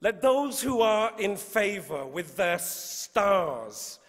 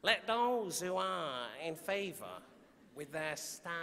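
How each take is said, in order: First: Said in the usual way. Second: Soft, trailing Mancunian accent on "Let those who are in favour with their stars"; Manchester accent. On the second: Shown as a demonstration. Poet starting the sonnet in a Manchester accent. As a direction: try the line in a Manchester accent, softer. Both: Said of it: "I wanna read it in a Manchester accent".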